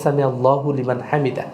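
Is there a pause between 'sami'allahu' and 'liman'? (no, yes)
no. The words run together without a pause. The speaker calls it right. "আপনাকে একসাথেই বলে নিতে হবে"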